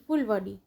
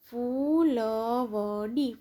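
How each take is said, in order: First: Said in the usual way. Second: ફૂલવડી very slow, every syllable held long; drawn-out ફૂલવડી, syllables separated. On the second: Shown as a demonstration. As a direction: sound out ફૂલવડી slowly for beginner readers. Syllable-by-syllable reading, then whole word.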